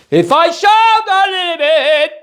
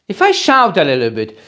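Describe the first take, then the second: First: Sung, high, loud, sing-song shout; sung, belt it out, sing-song. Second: Shouting. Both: Shown as a demonstration.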